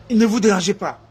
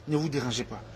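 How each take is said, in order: First: Said in the usual way. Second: Dropped almost to a murmur; soft aside. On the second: Real, not acted. Speaker tossing a soft aside to the crowd, much softer. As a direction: say it much softer, under the breath.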